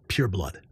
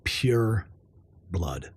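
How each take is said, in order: First: Said in the usual way. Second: Whispered. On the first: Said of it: "Pure blood (repeated whispered)". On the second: Shown as a demonstration. Proud unvaccinated vlogger whispering "Pure blood" to viewers. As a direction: whisper "Pure blood", "blood" sinking much lower and softer. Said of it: "pure blood, repeated".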